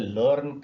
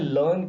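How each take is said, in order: First: The r sound is clearly pronounced. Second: The r sound is silent. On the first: The speaker calls it wrong. "लेकिन ये native speakers ऐसा नहीं कहते हैं" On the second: The speaker calls it right. "इसे लर्न कहेंगे"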